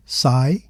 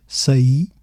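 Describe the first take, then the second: First: "sai" as one syllable, like "sigh"; diphthong. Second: "saí" as sa-EE, two syllables; hiatus. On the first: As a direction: glide from a into i in "sai". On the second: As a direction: stress the separate i in "saí". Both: Shown as a demonstration. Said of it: "sai versus saí".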